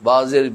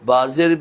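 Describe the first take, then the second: The two takes are said the same way.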